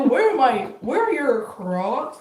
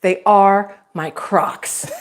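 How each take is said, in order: First: Catchphrase imitation. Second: Put-on slow, deliberate, mildly indignant old lady; angry old lady. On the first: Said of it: "And then you would do". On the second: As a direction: spell it out word by word, put out at being asked. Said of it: "she's so, like, just angry at him".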